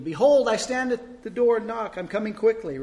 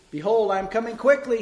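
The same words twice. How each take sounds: First: Loud, higher proclamation; calling out. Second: Loud, high shouted verse. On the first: Preacher calling out the verse to God, loud and high. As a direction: declare it out loud to heaven. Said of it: "said it out loud, kind of waiting". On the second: Preacher yelling the verse louder, hoping for inspiration. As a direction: yell it louder for the Holy Spirit. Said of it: "he shouted". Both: A narrator's reading.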